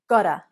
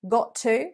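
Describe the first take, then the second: First: The words are reduced and blended into 'gotta'. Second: Both words are said fully and separately. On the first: The speaker calls it right. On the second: The speaker calls it wrong.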